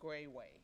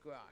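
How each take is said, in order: First: The name has two long A vowel sounds. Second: The name lacks the two long A sounds. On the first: This is the true pronunciation of the name. "my name is pronounced actually with two long A's" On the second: This is a simpler form used for convenience. "you just say Gras because it's easier"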